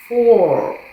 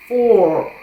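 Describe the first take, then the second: First: It is said as a single syllable. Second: The same.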